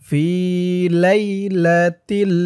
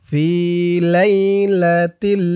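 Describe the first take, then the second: No difference in how they are said.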